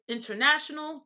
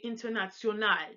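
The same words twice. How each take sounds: First: The word is said with English pronunciation. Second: The word is said with German pronunciation. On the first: "we would say it international" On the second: "they would say international"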